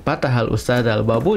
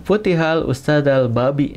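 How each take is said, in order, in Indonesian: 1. Kata terakhir berakhir dengan vokal u. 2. Kata terakhir berakhir dengan vokal i. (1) "maka artinya akan salah ya" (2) "itu tidak bisa dipahami ya"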